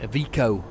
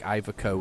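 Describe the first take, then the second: First: The name is said with an Italian-style pronunciation. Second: The name is said with an English-style pronunciation. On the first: The speaker calls it right. "Iveco is how you pronounce it because it's Italian" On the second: The speaker calls it wrong. "I was even saying it wrong. It was like Iveco"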